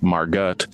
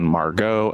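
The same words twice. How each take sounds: First: The name is said in an English way. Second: The name is said in a French way. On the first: The speaker calls it wrong. "and not" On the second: The speaker calls it right. "the French diminutive of Marguerite, hence the pronunciation"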